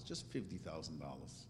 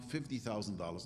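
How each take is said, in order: First: "just" leaned on, rest dropped much softer; soft downplaying "just"; stress on just. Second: Said in the usual way. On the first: Shown as a demonstration. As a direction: press "just" and let "fifty thousand dollars" fall away quietly. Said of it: "not fifty million dollars".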